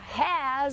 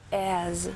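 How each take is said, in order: First: The word starts with a clear H sound. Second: The word starts with no H sound. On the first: "ao invés de falar has" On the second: "o H no meio de uma frase, ele perde o seu som"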